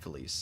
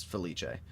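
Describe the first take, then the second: First: "Felice" as fuh-LEESS, two syllables; wrong pronunciation. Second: "Felice" as feh-LEE-chay, three syllables; correct pronunciation. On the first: Streamer rejecting viewers' version, "Felice" said fuh-LEESS. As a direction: end "Felice" on a plain s sound. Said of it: "It's not Felice". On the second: Streamer correcting viewers, "Felice" said feh-LEE-chay. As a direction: say "Felice" with ch and a final ay. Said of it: "It is Felice". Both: Shown as a demonstration.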